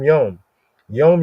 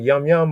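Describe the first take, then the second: First: The vowel sounds like 'oh'. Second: The vowel sounds like 'uh'. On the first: The speaker calls it right. "but Yom Yom" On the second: The speaker calls it wrong. "It's not like Yum Yum"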